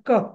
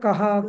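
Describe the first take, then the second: First: The word ends in a bare 'ka' without 'ha'. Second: The word ends with an audible 'ha' sound. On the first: This is how it goes in verse. "क्रीडा समय असं होतं पद्यामध्ये" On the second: This is how it goes in prose. "विसर्गाचा कहा, क्रीडा समय असंच म्हणायचं असतं"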